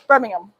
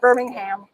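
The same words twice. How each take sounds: First: It is said the British way. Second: It is not said the British way. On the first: The speaker calls it right. "No, no, U K, England" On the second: The speaker calls it wrong. "not Birmingham"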